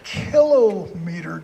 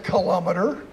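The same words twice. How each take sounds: First: The stress is on the first syllable. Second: The stress is on the second syllable. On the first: The speaker calls it right. "It's kilometer, guys. It's a meter, and there are a kilo of them" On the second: The speaker calls it wrong. "don't say kilometer, because then you have to say centimeter"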